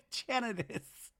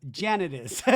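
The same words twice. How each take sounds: First: Slow, high, half-laughed repeat; laughing through it. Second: Said in the usual way. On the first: Real, not acted. Repeating Zach's blame through laughter. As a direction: savor the line while still laughing.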